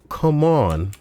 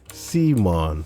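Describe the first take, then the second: First: It is said like 'come on'. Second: It is said like 'see mon'. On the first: The speaker calls it right. "a contraction of "come on,"" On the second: The speaker calls it wrong. "Pronounced Simon"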